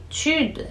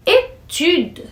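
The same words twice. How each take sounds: First: Étude repeated softer with a rounded u. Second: Étude said higher, leaning on the rounded u; étude, pulled on the u. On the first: Teacher repeating étude softly for students. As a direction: say étude again, lips forward on the u. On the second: Teacher contrasting Étude with étudier, rounding the u. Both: Shown as a demonstration. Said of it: "que puxa mais no U aí".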